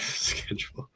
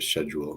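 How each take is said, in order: First: The word begins with a hard 'sk' sound. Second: The word begins with a soft 'sh' sound. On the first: This is how Americans say it. "hard C" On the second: This is how the British group says it. "you guys like don't give up on that bit, pronouncing it schedule"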